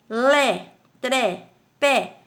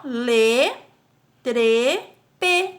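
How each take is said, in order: First: "lé, tré, pé" with open e, one at a time; open stressed É. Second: "lê, trê, pê" with closed e, slowly spaced out. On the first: Teacher reading the stressed syllables to pupils, open e in "lé, tré, pé". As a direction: say "lé", "tré", "pé" separately with open vowels. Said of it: "Se não fosse uma sílaba tônica". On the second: Teacher showing them without stressed accent, closed e in "lê, trê, pê". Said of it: "seria só". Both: Shown as a demonstration.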